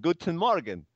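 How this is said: The greeting is said in a cheerful tone.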